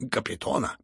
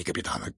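First: "капитана" said as Kapitona, stressed O; Kapiton with O. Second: "капитана" with a stressed A, low; captain with A. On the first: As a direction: put a clear OH in "капитана" instead of AH. General corrects the name, intended form. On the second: General corrects the name, rejected form. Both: A narrator's reading.

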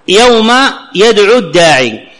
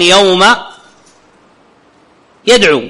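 First: يدعو الداعي run together, the waw of يدعو dropped into the lam; connected reading. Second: يوم يدعو with a held pause after يدعو; pausal reading. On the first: Teacher reads the verse aloud, joining يدعو to الداعي without the waw. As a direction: read يوم يدعو الداعي joined, no waw sound. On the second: Teacher shows stopping on يدعو so the waw is heard. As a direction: stop on يدعو and say its final long waw fully. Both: Shown as a demonstration. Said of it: "لأن أنا قد أقف على يدعو".

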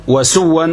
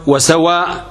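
First: وسوا said with a short final vowel and no hamza; وسوا, the short form that rhymes with رضا; short form of the word. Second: وسواء said with a long final a and a closing hamza; وسواء, the long form that rhymes with سماء. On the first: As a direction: say وسوا ending open on a short a. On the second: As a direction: stretch وسواء and stop on the hamza. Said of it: "وسواء كسماء". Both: Shown as a demonstration.

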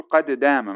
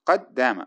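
First: "قد دام" as qade dāma, first د bounced; echoed dal. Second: "قد دام" as qad-dāma, one doubled د; fuse "قد دام" on a held د with no bounce; merged dal. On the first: Teacher shows the forbidden way, echoed dal. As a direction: release the د of "قد" with a small echo before دام. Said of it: "لا يجوز أن تقول قد دام مثلًا وتقلقلها". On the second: Teacher shows the required form, merged dal. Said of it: "تدغم الدال في الدال". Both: Shown as a demonstration.

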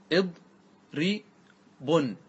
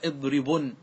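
First: اضربن split as "id... ri... bun", very slow; اضربن very slowly, pausing after each syllable. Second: Said in the usual way. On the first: Shown as a demonstration. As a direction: spell out اضربن in three separated syllables. Teacher breaks word into syllables.

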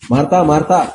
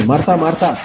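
First: A mild warning call of Martha, Martha; gentle warning. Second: Gentle warning, falling. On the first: (Martha, Martha అని మెల్లగా హెచ్చరించడం) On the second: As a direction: call Martha, Martha again, letting the tune fall. (Martha, Martha అని కిందికి దిగే స్వరంతో హెచ్చరిక) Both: Retold or imitated. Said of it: "రెండుసార్లు హెచ్చరిస్తుంది".

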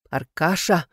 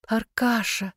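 First: Controlled, menacing call; stern warning. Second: Lilting, pitched-up endearment; singsong coaxing. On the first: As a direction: say the name as a threat. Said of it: "грозно сказала я". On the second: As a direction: sing the name out sweetly. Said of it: "запела я". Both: A narrator's reading.

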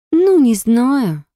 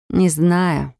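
First: Slow drawn-out doubtful ну, не знаю; drawled. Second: Said in the usual way. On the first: Acted. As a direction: drag out ну, не знаю skeptically. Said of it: "протянула Снежана".

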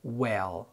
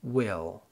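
First: WELL with a light, open short e as in "bed". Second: "will" with a distinct short i, as in "sit"; clear short i. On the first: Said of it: "كسرتها خفيفة، فبنقول". (well بكسرة خفيفة) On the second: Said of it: "بتبقى كسرتها ظاهرة". (will بكسرة ظاهرة) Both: Shown as a demonstration.

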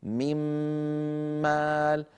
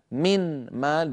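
First: "من مال" as one long humming doubled m, no n; merged into meem. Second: "من مال" slowly with a distinct n, unmerged; clear noon. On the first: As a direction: melt the n of "من" into a held m before "مال". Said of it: "الآن بعد الإدغام صار". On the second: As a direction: separate the n of "من" from the m of "مال". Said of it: "بنون ساكنة". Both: Shown as a demonstration.

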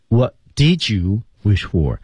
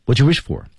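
First: "What did you wish for" slowly, with "did" said out in full; careful "What did you wish for", every word separate; full unlinked form. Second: "What you wish for" with "did" swallowed into "you"; quick linked "What you wish for", no "did" heard; linked form. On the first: Teacher showing "What did you wish for" unlinked, slowly. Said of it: "说得非常快，所以did被融入到了you当中". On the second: Teacher showing "did" blended into "you" in "What you wish for". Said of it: "所以did被融入到了you当中". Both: Shown as a demonstration.

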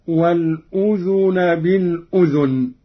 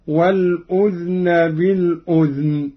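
First: Said in the usual way. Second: والأذن بالأذن as "wal-udhna bil-udhn"; no vowel after the dhal in both الأذن; silent dhal vowel. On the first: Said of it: "قرأ قالون بإسكان الذال". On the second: Shown as a demonstration. Teacher demonstrating Qalun's reading, الأذن said "udhn" with unvowelled dhal. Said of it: "بإسكان الذال هكذا".

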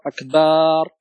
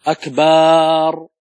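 First: Said in the usual way. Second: "أكبر" with the ba held very long, sounding like "أكبار"; very slow, drawn-out ba in "أكبر"; wrong long ba. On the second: Shown as a demonstration. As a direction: slowly stretch the ba of "أكبر" as the mistake. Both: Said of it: "مد الباء".

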